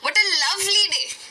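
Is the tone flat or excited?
excited. It is said with excited emotion.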